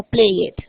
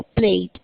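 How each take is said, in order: First: "played" wrongly split as "play it"; mispronounced -ed. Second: "played" as "pleid", lower, closing on D; correct one-syllable -ed. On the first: Teacher shows the class the mistake, "play it" in two syllables. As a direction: add a false second syllable, "play it". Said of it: "no play it". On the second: Teacher corrects the mistake for students, "played" in one syllable. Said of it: "sino played". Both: Shown as a demonstration.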